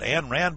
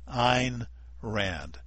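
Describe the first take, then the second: First: The first name does not rhyme with nine. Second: The first name rhymes with nine. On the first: The speaker calls it wrong. "even when folks say things like" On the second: The speaker calls it right. "pronounced like nine"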